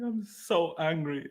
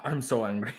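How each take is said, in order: First: Slow, drawn-out mock angry; slow mock anger. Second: Said in the usual way. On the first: Shown as a demonstration. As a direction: stretch each word in mock fury.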